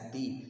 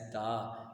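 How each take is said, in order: First: The word ends in a long 'ee' vowel. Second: The word ends in a short 'uh' vowel. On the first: The next word begins with a vowel sound. "whenever the is placed before a vowel sound, it is pronounced as the" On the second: The next word begins with a consonant. "when the is placed before a consonant letter, it is named and pronounced as the"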